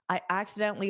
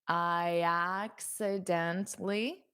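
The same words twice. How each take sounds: First: The phrase is said quickly and smoothly. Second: The phrase is said slowly and carefully. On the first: "now I'll say it fast" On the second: "I'll say it slowly"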